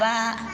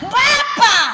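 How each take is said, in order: First: It is said softly at a low pitch. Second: It is said at a very high pitch. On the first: A gentle first request to the husband. "suara pertama kalau pelan" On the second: The request has become an insistent demand. "yang ketiga aduh naik lima oktav"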